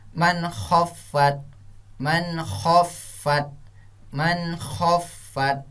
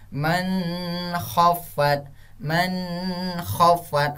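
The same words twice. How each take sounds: First: "Man khafat" with a clear short N, no hum, slowly; correct izhar reading. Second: "Man khafat" with a long nasal hum on the N; wrong humming reading. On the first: Teacher showing the right way, "Man khafat" slow without humming. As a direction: cut the N of "Man khafat" clean before kh. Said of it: "Ustaz contohkan yang betulnya". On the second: Teacher showing pupils the error, "Man khafat" with hummed N. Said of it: "bukan seperti ini cara bacanya". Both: Shown as a demonstration.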